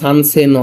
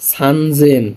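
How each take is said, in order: First: The last syllable begins with a voiceless s sound. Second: The last syllable begins with a voiced z sound. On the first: The speaker calls it wrong. "তিন হাজার আবার সানসেন হয় না" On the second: The speaker calls it right. "তিন হাজার হইলো সানজেন"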